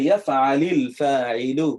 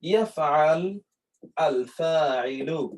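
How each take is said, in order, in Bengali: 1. ক্রিয়াটি একটি ই-স্বর দিয়ে শেষ হয়, যা পরের শব্দের সাথে যুক্ত হয়। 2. ক্রিয়াটি একটি খালি ব্যঞ্জন দিয়ে শেষ হয়। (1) "এই সুকুনটি তখন কাসরাতে পরিবর্তন হয়ে যাবে" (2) "এখানে কিন্তু এর উপরে কিন্তু সুকুন"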